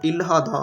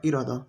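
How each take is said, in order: First: इल्हादा read letter by letter with a hard l and h; the spelled-out इल्हादा a learner might say, not the real one; wrong reading. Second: इरादा said smoothly as i-ra-da, the l sound softened to r; correct reading. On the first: Teacher showing students the wrong way, a plain spelled-out reading. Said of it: "नहीं पढ़ना". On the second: Teacher giving students the right sound, a clear model. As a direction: say इरादा the Korean way, one flowing word. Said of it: "आपने पढ़ना इरादा". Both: Shown as a demonstration.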